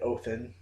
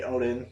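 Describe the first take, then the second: First: The middle consonant is a th sound. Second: The middle consonant is a d sound. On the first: This is the form used in the story. "They said Othin" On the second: This is the usual form of the name. "they don't say Odin"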